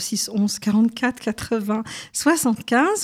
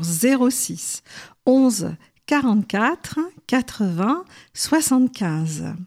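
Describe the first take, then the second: First: The number is read at a normal, quicker pace. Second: The number is read more slowly and deliberately.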